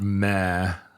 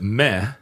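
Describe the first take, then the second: First: The vowel is drawn out like a bleating sheep. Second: The vowel is short and plain. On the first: The speaker calls it wrong. "whatever you said. You sounded like a like a sick sheep" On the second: The speaker calls it right. "I pronounce it meh"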